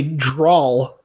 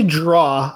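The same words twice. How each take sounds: First: "drawl" drawn out slowly, ending in L; Southern drawl pronunciation. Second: "draw" with an open vowel ending, no L; draw without L. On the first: Showing how Virginians say draw, "drawl" with final L. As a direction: stretch "drawl" and close on a clear L. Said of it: "like a Southern drawl". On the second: Showing own pronunciation, "draw" with no L sound. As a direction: end "draw" on the vowel, tongue down. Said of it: "that ends with a W". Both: Shown as a demonstration.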